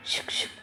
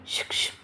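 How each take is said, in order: First: Whispered psst, barely there. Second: A voiced psst to catch her ear; psst call. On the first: Acted. Arjun hiding behind the pillar, calling his sister-in-law in a whisper. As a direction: breathe the psst so no one else hears. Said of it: "आणि असा हळूहळू का बोलतोय?". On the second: Arjun hissing from behind the pillar to get her attention, voiced. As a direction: call out a hushed psst, still in voice. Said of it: "pillar मागून तिला कोणाचा ज-, कुणाचा तरी आवाज आला".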